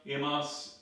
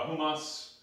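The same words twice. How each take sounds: First: "imas" said without the h, as ee-mahs; first try at Greek. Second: "humas" with a breathy h, hoo-mahs; self-correction to "humas", h sounded at the start; corrected Greek. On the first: Pastor stumbling over Greek for his congregation, "imas" said ee-mahs. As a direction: Greek word "imas" read as ee-mahs, no breath at the start. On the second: Pastor correcting his Greek for the congregation, "humas" said hoo-mahs. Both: Real, not acted. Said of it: "uh, humas".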